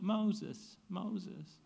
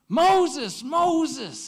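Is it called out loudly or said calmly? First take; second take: calmly; loudly. First: It is said calmly without exclamation. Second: It is called out loudly with exclamation.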